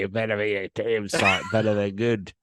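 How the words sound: It is said in Murdoch's Australian accent.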